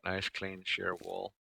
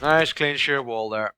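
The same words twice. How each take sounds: First: Slow, softer, pleased murmur; Nice clean sheer wall murmured slow and soft; soft admiring. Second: Slow, louder and higher, showing off; Nice clean sheer wall there called out slow, louder and higher; proud announcement. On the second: Admiring wall, second take. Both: Real, not acted.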